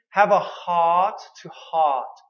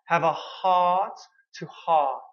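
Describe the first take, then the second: First: "have a heart to heart" said slowly; slow drill. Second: Said in the usual way. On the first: Shown as a demonstration. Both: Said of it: "So the expression".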